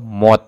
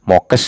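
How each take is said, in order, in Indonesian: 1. Kata itu berakhir dengan bunyi t. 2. Kata itu berakhir dengan bunyi kes. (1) "atau mot" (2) "Itu tidak mokes"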